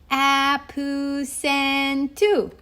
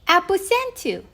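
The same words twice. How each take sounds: First: The word is said slowly and drawn out. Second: The word is said at a normal speed.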